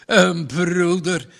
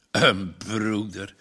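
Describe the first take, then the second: First: Slow, louder, higher mocking repeat; scornful outburst. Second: A low, slow scoffing echo; mocking repeat. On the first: Farmer throws Margje's word back, louder and mocking. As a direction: fling the word back at her. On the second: Farmer echoes Margje's word, low and scornful. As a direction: turn her word over in disbelief, lower.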